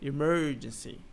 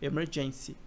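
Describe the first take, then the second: First: The stress falls on the syllable 'mer'. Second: The stress falls on the syllable 'gen'. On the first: The speaker calls it right. "é emergency. Então é diferente a sílaba tônica" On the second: The speaker calls it wrong. "não é emergency"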